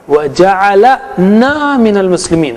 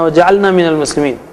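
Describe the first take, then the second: First: A short a vowel comes between L and N. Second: The L runs straight into the N sound. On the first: He made us among the Muslims. The speaker calls it right. "जअलना नहीं" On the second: We made ourselves among the Muslims. The speaker calls it wrong. "आप ये मत बोलिए"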